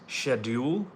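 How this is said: It is said with a British pronunciation. "British pronounce"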